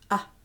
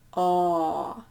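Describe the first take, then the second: First: The vowel is held only briefly. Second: The vowel is held for a long time. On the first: "start with the short A sound" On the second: "The long one"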